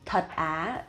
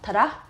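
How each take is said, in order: First: The phrase is said slowly and carefully. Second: The phrase is said quickly and casually.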